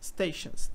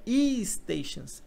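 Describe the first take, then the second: First: The word starts directly with the s sound. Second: An extra vowel sound comes before the s. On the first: The speaker calls it right. "é só stations" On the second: The speaker calls it wrong. "não é e-stations"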